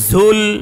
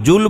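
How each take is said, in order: First: The word begins with a z sound. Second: The word begins with a j sound. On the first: The speaker calls it right. "কিন্তু উচ্চারণটা কি হবে? ঝুল বলেন তো" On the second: The speaker calls it wrong. "জুল জুল বললে জিম হয়ে গেল"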